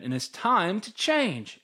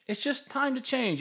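First: Firm statement. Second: Higher softer echo. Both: Shown as a demonstration. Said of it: "repeats the phrase for emphasis".

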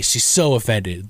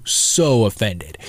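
First: Said in the usual way. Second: Slow, with "so" drawn out and leaned on; slowed down, "so" held and pressed; stress on so. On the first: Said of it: "so, so offended". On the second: Shown as a demonstration. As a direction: stretch the "so" to sell how offended. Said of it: "like, so".

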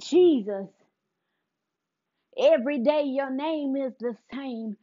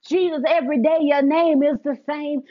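First: Put-on sung, soft, half-spoken line of the old song; sung, quiet hymn line. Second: Put-on sung, louder line of the old song, lifted up; sung, louder hymn line. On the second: Sung, speaker voicing the song as faith shifts, louder and lifted. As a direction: sing it out with growing faith. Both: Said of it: "I begin to notice a shift".

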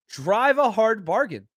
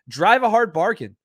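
First: "Drive a hard bargain" drawn out slowly, each word spaced; slow repeat. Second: "Drive a hard bargain" punched out louder, stress on hard; emphatic. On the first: Host repeats his answer to the chatter, slowed right down. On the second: Host answers a chatter's leverage point with a louder emphatic line. Mock praise of caller's leverage. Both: Acted.

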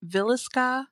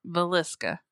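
First: "Villisca" with too much weight on VIL; over-stressed first syllable. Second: "Villisca" as vuh-LIS-kuh; weight on LIS in "Villisca", first syllable reduced; corrected pronunciation. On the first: Real, not acted. Host naming the murder town, over-stressed "Villisca". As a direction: hit the start of "Villisca" high and hard. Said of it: "putting a little bit too much". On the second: Shown as a demonstration. Host repeating the co-host's correction, "Villisca" as vuh-LIS-kuh. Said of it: "how do you say it again?".

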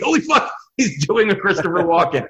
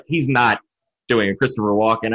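First: Retold astonishment. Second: Low, doubtful replayed thought; retold disbelief. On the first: Replaying his realization on rewatching. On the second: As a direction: doubt it to yourself, pitched down. Replaying his doubt on first hearing.

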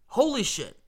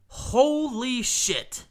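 First: Short, clipped "Holy shit" with a falling end; quick retold reaction. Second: Long, drawn-out, high "Holy shit"; retold stunned reaction. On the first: Fan recalling the late equalizer, quick stunned exclamation. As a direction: snap out "Holy shit" fast, still stunned. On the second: Fan recalling the late equalizer, slow stunned exclamation. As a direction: stretch "Holy shit" out slowly in disbelief. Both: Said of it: "really was the reaction".

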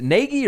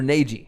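First: "Nagy" said NAY-ghee, with a hard G; hard-G pronunciation. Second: "Nagy" said NAY-jee, with a J sound; soft-G pronunciation. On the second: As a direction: say "Nagy" with G as in gem. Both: Shown as a demonstration. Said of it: "two different pronunciations".

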